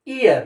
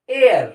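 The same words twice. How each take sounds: First: "ear" as a bare long ee vowel, the mistake for year; wrong, without "ya" sound. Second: "ear" said as year, with a light y glide; light "ya" sound. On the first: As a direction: show "ear" with no y glide. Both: Shown as a demonstration. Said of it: "ऐसे हल्का सा या का pronunciation आना चाहिए".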